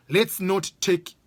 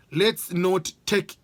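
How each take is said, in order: Both takes have the same delivery.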